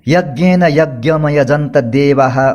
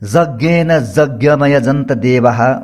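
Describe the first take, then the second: First: The words are said with a y sound. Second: The words are said with a j sound. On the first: "कोई य बोलते हैं" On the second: "कोई ज बोलते हैं"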